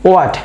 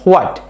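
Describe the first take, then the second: First: The word begins directly with a w sound. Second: The word begins with a breathy h sound. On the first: The speaker calls it right. "এটা কি হবে ওয়াট" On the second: The speaker calls it wrong. "এই এইচটাকে সহ আমরা উচ্চারণ করি হোয়াট"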